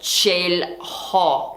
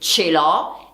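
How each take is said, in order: First: An audible h sound comes before the vowel. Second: The h is silent, with no breathy sound. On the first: The speaker calls it wrong. "e non ce l'ho come fanno alcuni studenti" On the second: The speaker calls it right. "l'H è muta in italiano, quindi si dice ce l'ho"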